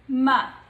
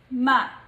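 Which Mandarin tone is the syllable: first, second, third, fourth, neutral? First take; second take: neutral; neutral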